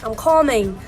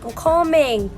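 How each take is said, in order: First: It is said in an imitated Nigerian accent. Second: It is said in an imitated Nigerian accent.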